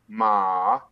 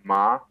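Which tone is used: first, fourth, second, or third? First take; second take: third; second. First: The syllable is said with a middle tone. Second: The syllable is said with a rising tone. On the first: It means horse. "النغمة الثالثة ما نغمة متوسطة" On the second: It means flax. "طلعنا بالصوت"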